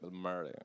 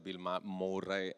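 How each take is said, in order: First: The name is said with English-style sounds. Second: The name is said with Italian-style sounds. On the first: This is how the English speaker says it. "e lui" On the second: This is how Italians would say it. "Ne avremmo detto"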